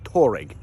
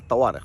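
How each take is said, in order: First: The name is said as Toureg, foreign-style. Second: The name is said as Tawareq, Arabic-style. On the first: The speaker calls it wrong. "وليست توريج" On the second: The speaker calls it right. "نعم اسمها الطوارق"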